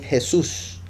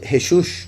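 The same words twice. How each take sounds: First: The middle consonant is an s sound. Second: The middle consonant is a sh sound. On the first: The speaker calls it wrong. "la shin la pronuncian como una S" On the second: The speaker calls it right. "ellos no dicen Jesús"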